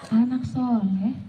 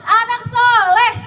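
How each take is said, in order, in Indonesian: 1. Dipanggil dengan suara kecil dan pelan. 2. Dipanggil dengan lantang dan semangat.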